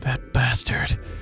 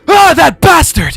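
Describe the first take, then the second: First: It is said in a plain reading voice. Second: It is said in a dramatic anime voice.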